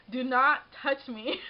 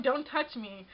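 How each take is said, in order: First: Slow "Do not touch me" with NOT leaned on; stress on NOT. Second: Said in the usual way. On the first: Retold or imitated. Warning the guy grabbing her arm, stress on NOT. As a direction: hit "not" hard, each word separate.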